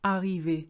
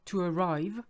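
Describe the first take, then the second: First: "arriver" in French, strong A. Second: "To arrive" in English, first A glossed over. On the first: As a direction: say "arriver" with all vowels full. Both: Shown as a demonstration. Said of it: "So you see the difference".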